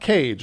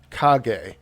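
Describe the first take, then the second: First: The name sounds like the word cage. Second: The name does not sound like cage. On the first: The speaker calls it wrong. "This is not Cage" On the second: The speaker calls it right. "we're changing Laki to Kage"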